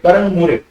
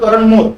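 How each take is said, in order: First: The surname ends with a vowel sound. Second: The surname ends with a consonant sound. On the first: The speaker calls it right. "मेरा surname है मोरे" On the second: The speaker calls it wrong. "अब आप बोल दो करण मोर, तो फर्क पड़ गया"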